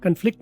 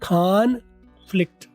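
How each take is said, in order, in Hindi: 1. पहला स्वर छोटा 'uh' ध्वनि है। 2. पहला स्वर खुला 'o' ध्वनि है। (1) "कन्फ्लिक्ट नहीं"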